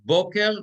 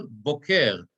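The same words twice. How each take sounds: First: Boker high and loud, first syllable stressed; stress on start of boker. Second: Boker stressed on the falling final syllable; stress on end of boker. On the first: Teacher letting class hear difference, Boker stressed on first syllable. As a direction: punch the BO of Boker. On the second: Teacher letting class hear difference, boker stressed on last syllable. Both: Shown as a demonstration. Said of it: "Everybody hear the difference".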